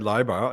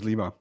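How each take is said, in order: First: The first vowel sounds like 'eye'. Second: The first vowel sounds like 'ee'. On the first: The speaker calls it right. "I say Leiber" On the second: The speaker calls it wrong. "everybody else says"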